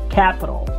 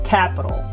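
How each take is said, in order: The two takes are said the same way.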